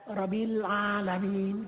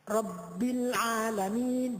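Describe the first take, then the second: First: The b sound is short and single. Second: The b sound is held doubled. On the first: The speaker calls it wrong. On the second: The speaker calls it right.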